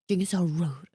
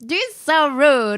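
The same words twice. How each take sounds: First: It sounds seriously offended and disapproving. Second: It sounds playful and teasing, amused. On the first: The person is genuinely insulted by him. The speaker calls it wrong. "I didn't mean like, oh" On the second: He teases people and it is funny. The speaker calls it right. "No, I mean like, ... but like, it's funny"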